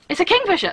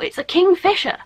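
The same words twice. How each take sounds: First: The stress falls on 'king'. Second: The stress falls on 'fisher'. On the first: The speaker calls it right. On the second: The speaker calls it wrong. "I would not see the bird and be like, oh, it's a kingfisher. No"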